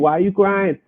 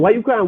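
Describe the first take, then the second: First: It is asked in a quiet, calm tone. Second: It is asked in a harsh, scolding tone.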